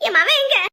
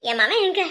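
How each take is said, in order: First: Louder, high-pitched repeated demand; sharp raised-voice question; insistent demand. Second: Said in the usual way. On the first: Acted. Repeats demand for son more forcefully.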